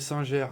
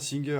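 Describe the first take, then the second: First: The name is said the French way, sounding the R. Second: The name is said in an American way. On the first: "c'est Singère et on prononce le R" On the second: "j'aime bien Singer à l'américaine"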